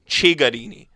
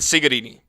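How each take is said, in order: First: The first C is sounded the Italian way. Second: The first C is sounded the English way. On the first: The speaker calls it right. "you have to learn how to say the players' names right" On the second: The speaker calls it wrong. "they don't know how to pronounce the C E or the C I in Italian"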